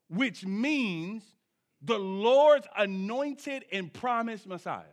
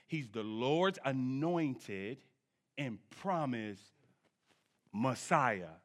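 First: It is said at normal speed. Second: It is said slowly and deliberately.

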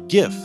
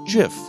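First: The word begins with a hard G sound. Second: The word begins with a soft G sound. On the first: It follows the sound of graphics. "since the word graphics has a hard G, the word should be pronounced GIF" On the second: It follows the creator's choice. "claims it's pronounced GIF"

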